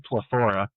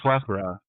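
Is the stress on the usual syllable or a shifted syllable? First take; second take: shifted; usual. First: The stress falls on an unexpected syllable. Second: The stress falls on the normal syllable. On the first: It is the band's own quirky name. "we like to put the emphasis on the wrong syllables" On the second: It is the ordinary English word. "it's the word plethora"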